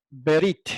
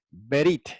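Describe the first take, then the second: Both takes have the same delivery.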